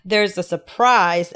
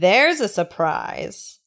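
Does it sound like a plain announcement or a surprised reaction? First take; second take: announcement; surprised reaction. First: It sounds like a plain, informative announcement. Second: It sounds like a surprised reaction.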